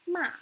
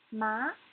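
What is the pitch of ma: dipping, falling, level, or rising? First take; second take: falling; rising. First: The pitch falls sharply from high to low. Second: The pitch rises from middle to high. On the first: "the fourth tone has to go straight down" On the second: "the second tone needs to go up"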